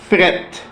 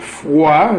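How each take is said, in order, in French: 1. La voyelle se prononce 'eh'. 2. La voyelle se prononce 'wa'. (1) "becomes, devient, fret" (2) "The word froid"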